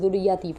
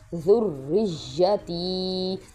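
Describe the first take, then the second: First: The y sound is short and single. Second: The y sound is held and doubled. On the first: The speaker calls it wrong. "लोग इसको ज़ुर्रियती पढ़ते हैं" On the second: The speaker calls it right. "ये वर्ड है ज़ुर्रिय्यती"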